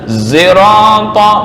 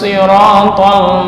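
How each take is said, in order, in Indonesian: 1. Bunyi pertama mencampurkan s dengan z. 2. Kata ini diawali dengan bunyi s emfatik. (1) "Zirata mencampurkan ini ya" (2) "sisanya ini dibaca shad normal"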